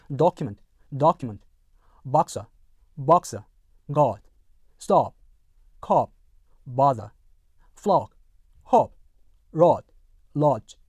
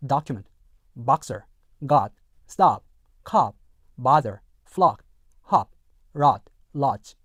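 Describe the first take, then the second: First: DOCUMENT, BOXER, GOD, STOP with rounded "o"; British model of document to lodge, short o, boxer without R. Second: DOCUMENT, BOXER, GOD, STOP with an open "ah"; American model of document to lodge, O as ah, R sounded; American short-O as ah. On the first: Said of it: "어 사운드가 이렇게 됩니다". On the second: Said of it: "일반 미국 영어에서는요". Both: Shown as a demonstration.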